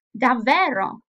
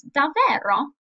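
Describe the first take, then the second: First: Davvero said with a doubtful, surprised fall. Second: Davvero said higher and louder, incredulous; incredulous Davvero repeated for the class; surprised davvero. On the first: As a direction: make Davvero sound like disbelief. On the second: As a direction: ask Davvero as if you can't believe it. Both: Shown as a demonstration. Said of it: "the intonation came with these expressions".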